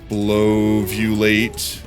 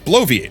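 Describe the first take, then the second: First: The word ends with an '-ulate' sound. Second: The word ends with an '-iate' sound. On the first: The speaker calls it wrong. "I'm definitely saying it wrong" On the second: The speaker calls it right. "Okay, no, I was saying it wrong"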